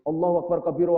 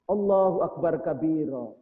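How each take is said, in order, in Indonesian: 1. Diucapkan dengan cepat dan terburu-buru. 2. Diucapkan dengan pelan dan penuh kesengajaan. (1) "Jadi bacanya buru-buru" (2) "Coba kalau bacanya pelan-pelan"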